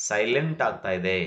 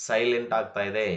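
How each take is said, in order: No difference in how they are said.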